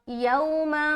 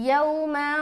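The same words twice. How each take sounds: The two takes are said the same way.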